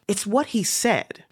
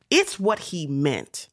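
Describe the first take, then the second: First: "what" raised high and leaned on; stress on what. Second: "It's" pushed out first, the rest slow and level; slow, deliberate "It's what he meant"; stress on It's. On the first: Lecturer defends her interpretation, stressing "what". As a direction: lecturer insisting, hits "what" in "It's what he said". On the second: Lecturer insists on meaning, stressing "It's". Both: Real, not acted.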